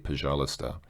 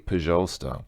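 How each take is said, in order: First: The middle 'ui' sound is fully pronounced. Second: The middle 'ui' sound is dropped. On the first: The speaker calls it wrong. "actually hear somebody pronounce this uh in the middle" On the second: The speaker calls it right. "Russians don't usually pronounce that. They usually say"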